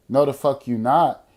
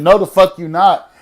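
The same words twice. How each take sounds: First: Said in the usual way. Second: Higher, louder tough refusal. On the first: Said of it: "I'm the trade". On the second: Retold or imitated. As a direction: bark it back, macho and loud. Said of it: "feeling like the trade".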